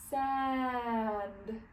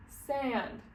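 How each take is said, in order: First: "sand" slowly stretched, every sound held. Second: Said in the usual way. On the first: Shown as a demonstration. Teacher models reading for children, stretching "sand" to sound it out. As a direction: draw "sand" out from long s to final d. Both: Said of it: "sounding out every word".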